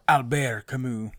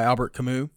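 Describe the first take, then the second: First: The name is said with a French accent. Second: The name is said with an English accent.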